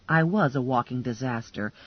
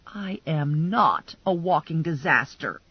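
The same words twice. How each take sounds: First: "was" leaned on, tune falling away; stress on was. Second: "not" hit hard with a falling tune; stress on not. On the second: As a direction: deny it by leaning on "not". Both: Acted.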